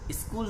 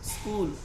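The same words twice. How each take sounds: First: An extra i vowel comes before the s. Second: The word starts directly with the s sound. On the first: The speaker calls it wrong. "इस ऐसे बोलते हैं स्कूल, स्कूल नहीं होता" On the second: The speaker calls it right. "उसके बाद स्कूल ऐसा बोलना है"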